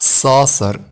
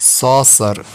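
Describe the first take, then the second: The two takes are said the same way.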